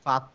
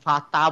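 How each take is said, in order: First: The vowel after the t is rounded. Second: The vowel after the t is open. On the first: The speaker calls it right. "মুখটা খুলছি না, মুখটা গোল করে ফেলছি" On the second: The speaker calls it wrong. "আমি ফাতা বলি নাই"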